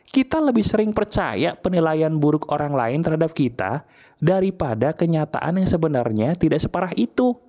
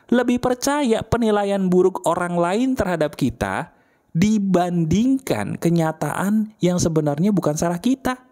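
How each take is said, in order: First: Said in the usual way. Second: Deliberate restatement, slowing on "dibandingkan kenyataan"; emphatic repetition. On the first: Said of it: "Saya ulangi ya". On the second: Shown as a demonstration. Coach repeating a hard truth to listeners, emphatic. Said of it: "Saya ulangi ya, maaf nih kalau nampar".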